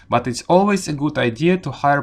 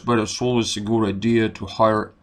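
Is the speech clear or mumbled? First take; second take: clear; mumbled. First: It sounds clear and crisply articulated. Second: It sounds muffled, like a potato in the mouth. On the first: The speaker calls it right. "we speak very clearly" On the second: The speaker calls it wrong. "it's like a potato in your mouth"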